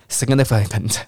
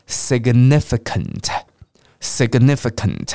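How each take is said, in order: First: Quick, slightly tumbling "significant"; sped up. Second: Slow "significant", x0.6 pace, each syllable separate; slow model. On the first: Teacher demonstrates speeding up and stumbles, hurried "significant". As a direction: rush through "significant" so syllables run together. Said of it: "那加快". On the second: Teacher lets learners start slower, slow careful "significant". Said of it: "先念慢一点点". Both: Shown as a demonstration.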